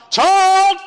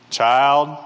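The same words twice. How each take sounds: First: Put-on loud, much higher-pitched shout at a child; acted parental outburst at full pitch; exasperated parent's yell. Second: Put-on low, controlled call to a child; a parent's first, level warning; contained, lower-pitched summons; restrained parent's warning. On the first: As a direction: patience gone, yell for the kid. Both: Parent calling child, escalating.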